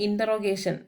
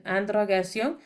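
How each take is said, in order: First: Said in the usual way. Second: "interrogation." said the French way, ending in a nasal -sion; "interrogation." in French, not English; French pronunciation. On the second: Shown as a demonstration. Teacher restates the word for students in French pronunciation.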